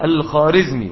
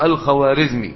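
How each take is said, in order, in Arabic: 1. يُنطق الاسم بدون صوت الواو. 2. يُنطق الاسم مع صوت الواو. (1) "فلا تنطق الخارزمي" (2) "ولكنها تكتب بالإيه؟ بالواو"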